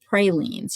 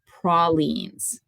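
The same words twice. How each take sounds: First: It uses a non-Louisiana pronunciation. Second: It uses the local Louisiana pronunciation. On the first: This is how people elsewhere say it. The speaker calls it wrong. "They're not pralines" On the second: This is how people in Louisiana say it. The speaker calls it right. "these are called pralines"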